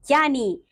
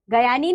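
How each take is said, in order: First: Said in the usual way. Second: "ज्ञानी" split into "ga-yaa-ni"; wrong pronunciation. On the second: Shown as a demonstration. Teacher showing pupils the error, "ज्ञानी" mispronounced as "gayaani". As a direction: put a vowel after the g of "ज्ञानी". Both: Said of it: "नहीं".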